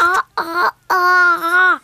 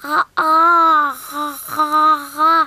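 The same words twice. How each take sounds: First: Straining to talk, mouth wide open. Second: Talking with mouth wide open. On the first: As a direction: say it with your jaw open wide. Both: Acted. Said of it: "C'est très difficile de parler avec la bouche grande ouverte".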